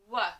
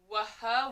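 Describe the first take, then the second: First: The letter pair is said as one sound. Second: The letter pair is split into two sounds. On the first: The speaker calls it right. "We just have to know the W H" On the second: The speaker calls it wrong. "if you try to take them sound by sound"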